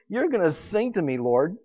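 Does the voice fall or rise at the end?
falls. The voice falls at the end, like a statement. It is stated as a fact.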